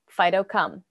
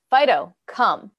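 First: The command is said in a calmer tone. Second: The command is said in a firmer, escalated tone.

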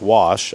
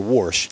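First: The word has no 'r' sound before the 'sh'. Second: The word has an 'r' sound before the 'sh'. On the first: "the words like wash" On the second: "are warsh"

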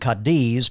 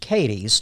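First: The name is said the Spanish way. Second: The name is said the local Kentucky way. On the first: This is the name of the town in Spain. "named for the town in Spain" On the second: This is how the Kentucky town's people say it. "but it's pronounced Cadiz. ... A redneck pronunciation"

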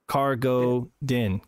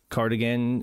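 First: The name sounds like cargo followed by din. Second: The name sounds like the word cardigan. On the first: The speaker calls it right. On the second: The speaker calls it wrong. "Wait, did I say that right?"

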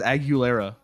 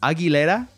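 First: The name has an Americanized pronunciation. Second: The name has a Spanish-style pronunciation. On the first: The speaker calls it wrong. "Everyone says [name]. It's like the whitest thing" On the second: The speaker calls it right. "it's Aguilera. that's how you pronounce it"

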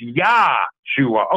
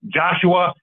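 First: The name begins with a 'y' sound. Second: The name begins with a 'j' sound. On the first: This is the form claimed to be the original. The speaker calls it right. "It's Yahshua" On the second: This is the form people were taught to say. The speaker calls it wrong. "the way we've been taught to pronounce Joshua"

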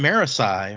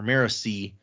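First: The name ends with an "eye" sound. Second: The name ends with an "ee" sound. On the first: This is how the speaker has always read it. "I've always said it Marisai in my head" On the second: This is how the author is thought to say it. "I think I've heard Brandon actually pronounce it Marisi"

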